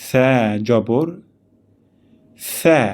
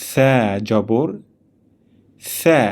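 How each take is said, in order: The two takes are said the same way.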